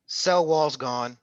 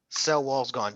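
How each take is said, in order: First: Each word of cell wall's gone stretched out slowly; teacher drilling the point, slow; slow emphatic repeat. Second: Said in the usual way. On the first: Shown as a demonstration.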